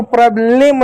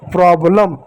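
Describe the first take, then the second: First: "प्रॉब्लम" misread with a full "lem" ending; wrong pronunciation. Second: "प्रॉब्लम" as "prob-lum", lower, with weak ending; light final vowel. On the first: Teacher showing pupils the misreading, "प्रॉब्लम" with sounded e. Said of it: "नहीं पढ़ेंगे". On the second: Teacher giving pupils the correct reading, "प्रॉब्लम" with light ending. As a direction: say "प्रॉब्लम" with the e reduced to a schwa. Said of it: "वहाँ पर हल्का पढ़ा जाएगा". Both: Shown as a demonstration.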